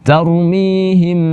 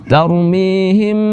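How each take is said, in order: Both takes have the same delivery.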